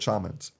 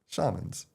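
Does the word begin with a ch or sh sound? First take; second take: ch; sh. First: The word begins with a sharp ch sound. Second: The word begins with a soft sh sound. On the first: "with a ch" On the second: "we just go"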